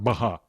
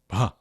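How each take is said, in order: First: A full vowel separates the b and h. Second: The h is breathed right as the lips release. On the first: The speaker calls it wrong. "It's not baha" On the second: The speaker calls it right. "It's bha"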